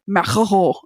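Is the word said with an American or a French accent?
French. The r is made at the back of the throat. The speaker calls it right. "you do it with the back of your throat"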